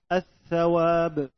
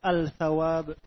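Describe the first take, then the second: First: The l merges into a doubled th sound. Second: The l is clearly pronounced before the th. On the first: The speaker calls it right. "Menunjukkan lam ini dibaca idgham" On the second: The speaker calls it wrong. "Tidak dibaca al-shalihin atau al-tsawab"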